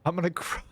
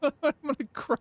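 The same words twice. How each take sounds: First: Said in the usual way. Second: Laughing through a mock whimper; high laughing mock cry; laughing fake cry. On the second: Real, not acted. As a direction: laugh while pretending to cry.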